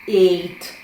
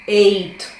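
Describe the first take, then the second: The two takes are said the same way.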